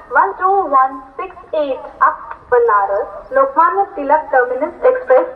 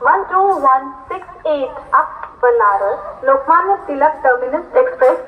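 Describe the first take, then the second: No difference in how they are said.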